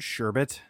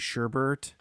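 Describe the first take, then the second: First: The second syllable has no r sound. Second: The second syllable has an r sound. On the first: The speaker calls it right. "You were right the first time" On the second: The speaker calls it wrong. "I called it sherbert"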